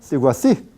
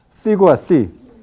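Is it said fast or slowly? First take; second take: fast; slowly. First: It is said fast, syllables run together. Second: It is said slowly, syllable by syllable.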